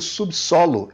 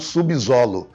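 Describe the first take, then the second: First: The s after sub sounds like a hissing s. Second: The s after sub sounds like a buzzing z. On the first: The speaker calls it right. "você pronuncia subsolo" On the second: The speaker calls it wrong. "e não subsolo"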